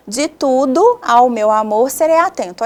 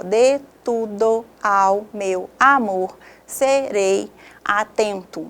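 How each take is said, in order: First: Joined-up verse line, vowels run together; flowing, linking "tudo ao" into each other; poetic syllable division. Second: Very slow, every syllable separated by a pause; syllable-by-syllable division. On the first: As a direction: read "De tudo ao meu amor serei atento" as one connected line. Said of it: "Olha só a divisão poética". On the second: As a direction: break "de tudo ao meu amor serei atento" into separate grammatical syllables. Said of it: "a divisão por sílabas gramaticais". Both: Shown as a demonstration.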